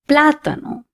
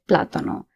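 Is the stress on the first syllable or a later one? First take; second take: first; later. First: The stress falls on the first syllable. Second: The stress falls on a later syllable. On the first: The speaker calls it right. "because of the accent, I'm going to say plátano" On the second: The speaker calls it wrong. "If there was no accent on the A, I would have said plátano"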